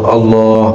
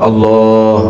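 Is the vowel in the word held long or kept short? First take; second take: long; long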